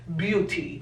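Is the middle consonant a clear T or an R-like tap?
clear T. The middle consonant is a clear T sound. This is how British English says it. "el inglés británico sí se podría decir beauty"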